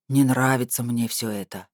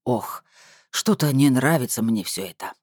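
First: Lightly voiced deep male figure; a hint of a thick, humming bass; booming bass. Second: Lightly voiced pensive man; a touch of brooding bass; thoughtful bass drawl. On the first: Uneasy man grumbles to the woman, lightly booming bass. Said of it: "прогудел густой бас, настолько низкий". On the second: Man has misgivings about her plan, mildly pensive drawl. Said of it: "задумчиво протянул бас". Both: A narrator's reading.

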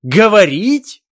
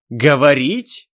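First: Much higher, much louder slow shriek; outraged shriek. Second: Loud, higher outraged question; first burst of outrage; indignant. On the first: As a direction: explode in outrage. Возмутился Ненависть. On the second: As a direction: elf outraged at the word. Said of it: "возмутился Ненависть". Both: Acted.

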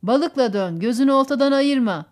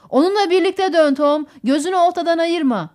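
First: Firm repeat, only slightly raised; repeating instructions. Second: Raised, loud voice calling directions; urgent instruction. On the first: Thomas Hudson repeats Roger's order back, firmly. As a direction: echo the order back, more evenly. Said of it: "diye tekrarladı Thomas Hudson". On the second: Roger tells Tom to turn with the fish, urgently. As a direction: call out orders across the boat. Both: A narrator's reading.

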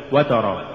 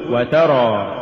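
First: وترى with the waw stressed as if from وتر; wrong reading. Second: وترى very slow, waw joined lightly; correct reading. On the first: Teacher showing the mistaken وترى. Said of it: "ولا تقل". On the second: Teacher modelling the correct وترى slowly. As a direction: read وترى smoothly, no stress on the waw. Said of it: "قل وترى". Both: Shown as a demonstration.

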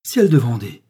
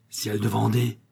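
First: "Ciel de Vendée" blurted out louder; sudden loud oath of astonishment; startled exclamation. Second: "Ciel de Vendée" muttered under his breath; grumbled oath. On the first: Pharmacist reading the letter, blurts out in loud surprise. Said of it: "fit-il tout à coup en tombant assis". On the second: Pharmacist seeing the shop door open, grumbling the oath. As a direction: grumble it to yourself. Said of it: "maugréa monsieur Richard". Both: A narrator's reading.

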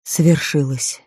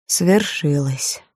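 First: Slow, soft sorrowful repeat; repeated softly. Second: Slow, sorrowful whisper-soft; a gentle grieving murmur right at his ear; sad, soft voice. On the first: Melchior repeats it to Barabbas, slow and soft. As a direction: say it again, gently and slowly. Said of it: "Мельхиор повторил". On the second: Melchior murmurs sadly into Barabbas's ear, slow and soft. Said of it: "сказал грустный и мягкий голос". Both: A narrator's reading.

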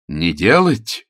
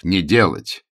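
First: «делать» stressed, falling in a mildly surprised echo; a touch of disbelief on «делать»; mild surprised repeat of «Не делать?». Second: Said in the usual way. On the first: A narrator's reading. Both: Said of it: "удивился Ронни".

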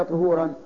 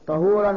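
First: "طهورا" opening with ṭu-; damma on ṭā'. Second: "طهورا" opening with ṭa-; fatha on ṭā'. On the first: Teacher repeating the quiz to students, damma on ط in "طهورا". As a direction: pronounce "طهورا" as ṭuhūran. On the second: Teacher repeating the quiz to students, fatha on ط in "طهورا". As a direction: pronounce "طهورا" as ṭahūran. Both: Shown as a demonstration. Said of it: "طهورا بفتح الطاء".

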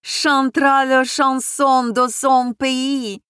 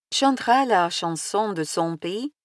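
First: Loud, high, slow announcer call; announcing. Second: Said in the usual way. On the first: A narrator's reading. Senechka announcing the singer to the guests, loud proclamation. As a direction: proclaim it like a host. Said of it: "возгласил". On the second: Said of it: "споёт песню своей родины".

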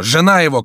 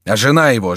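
First: Much higher, louder desperate shout. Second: Higher, louder anxious call; anxious cry. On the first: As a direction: cry it out in panic. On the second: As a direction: call out in sudden fear. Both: A narrator's reading. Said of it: "кричал Антраге".

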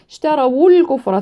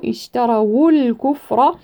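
First: Said in the usual way. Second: In اشتروا الكفر round the waw with damma; اشتروا joined with a clear u sound on the waw; slow, lips rounded on the waw of اشتروا. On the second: Shown as a demonstration. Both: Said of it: "ثم نضم الواو".

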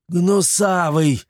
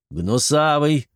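First: Higher, drawn-out slow yell. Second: A light call, a bit higher. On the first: Chermes yells at servant as trap springs, slow yell. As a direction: stretch the name out in alarm. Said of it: "выпучил глаза и заорал". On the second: Chermes calls his fat servant, mild call. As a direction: call the servant from the next room. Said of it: "и крикнул". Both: A narrator's reading.

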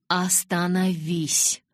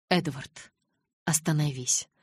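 First: Slow, louder drawn-out "Остановись!"; firm command. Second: Calm, level request. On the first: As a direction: stretch "Остановись!" into an order. Alice insists again. (медленное, громкое «Остановись!») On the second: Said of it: "спокойно повторила девушка". (спокойная, но твёрдая просьба) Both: A narrator's reading.

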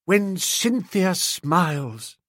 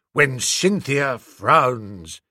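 First: Slow, dreamy recital; poem recital. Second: Slow, darker recital of the verse; gloomy verse. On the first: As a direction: declaim it like a lovesick poet. Bingo recites his poem. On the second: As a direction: turn the poem mournful. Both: Acted.

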